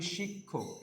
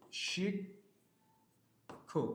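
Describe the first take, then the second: First: Said in the usual way. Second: শিক- held, long pause, then খো; syllable by syllable. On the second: Shown as a demonstration. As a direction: sound out "শিক- খো" slowly in two halves. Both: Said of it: "এটার উচ্চারণ আমরা কি করি".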